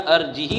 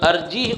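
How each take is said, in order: First: The final h is followed by an i vowel. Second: The final h is said with no vowel. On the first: "अर्जी ही होना चाहिए था" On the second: "हा क्या है, साकिन है"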